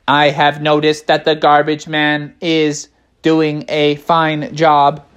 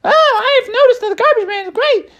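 First: Level, deliberate delivery in a natural register; measured bear. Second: Very high, squeaky character voice; high-voiced bear. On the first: Acted. Another bear gives an opinion on the garbage man, measured voice. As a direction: state it evenly, slowing at the end. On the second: A bear chimes in about the garbage man, very high voice. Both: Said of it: "they're all like".

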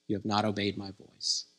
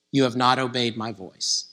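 First: Much softer, lower repeat; echoing hush. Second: Said in the usual way. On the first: Acted. Preacher repeats the prophet's rebuke, softly and lower. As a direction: let the rebuke sink to a near hush.

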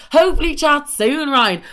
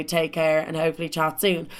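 First: Higher and louder, scornful mimic; sarcastic echo. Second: Said in the usual way. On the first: Mocking the ex's goodbye text, scornful and loud. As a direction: spit his line back mockingly.

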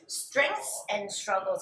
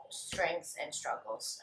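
First: Slow read-out. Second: Slow musing. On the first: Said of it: "That's a good one". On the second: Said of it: "I really have to think about this one". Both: Shown as a demonstration.

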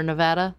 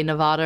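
First: Nevada with the "a" of "cat", nuh-VAD-uh; short-a Nevada. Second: Nevada with "ah" in the middle, nuh-VAH-duh; broad-a Nevada. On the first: Co-host weighs two pronunciations, Nevada said nuh-VAD-uh. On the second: Co-host weighs two pronunciations, Nevada said nuh-VAH-duh. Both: Shown as a demonstration. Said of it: "I don't know if I say".

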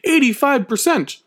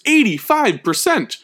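First: "Eighty-five percent" pitched high with a falling finish; stressed again. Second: Eighty-five said high and slow, falling; stressed statistic. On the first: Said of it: "That is a whopping number". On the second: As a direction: land "eighty-five percent" hard and high. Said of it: "get ready for this statistic". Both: Shown as a demonstration.

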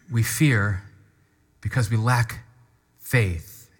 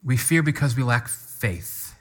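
First: "We fear", pause, "because we lack", pause, "faith" said slowly and apart; deliberate, weighted repetition; measured, with pauses. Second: Said in the usual way. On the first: Shown as a demonstration. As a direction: space out every phrase so it lands. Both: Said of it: "Can I say that again?".

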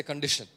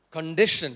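First: Said in the usual way. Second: Condition punched loud with a falling end; stress on condition. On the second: Shown as a demonstration. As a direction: hit condition hard and let it drop. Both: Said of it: "say condition".

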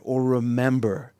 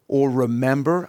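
First: Remember slowed and leaned on; slow, underlined remember; stress on remember. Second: Said in the usual way. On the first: Shown as a demonstration. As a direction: dwell on the word remember. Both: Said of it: "Underline remember".

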